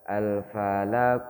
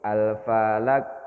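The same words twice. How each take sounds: First: The final q is followed by a vowel. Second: The final q is stopped without any bounce. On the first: "Kalau dihidupkan bacanya Al-Falaq" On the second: "Kalau tidak dipantulkan bunyinya begini"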